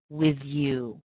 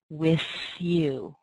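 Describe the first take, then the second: First: The th in 'with' is voiced. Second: The th in 'with' is voiceless. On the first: "people using that voiced sound" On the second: "I tend to use the unvoiced th"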